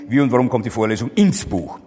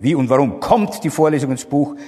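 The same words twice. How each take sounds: First: The stress is on the word Buch. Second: The stress is on the word warum. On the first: The question is about the book as destination. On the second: The question is about the reason.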